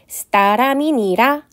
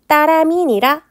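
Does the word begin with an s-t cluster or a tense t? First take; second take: s-t cluster; tense t. First: It begins with separate s and t sounds. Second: It begins with a single tense t sound. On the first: Both consonants of the cluster were pronounced. "제가 지금 의식적으로 시옷과 디귿을 연달아 소리를 내려고" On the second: The cluster spelling stood for a tense consonant. "된소리가 발달했고 합용병서로 표기했다"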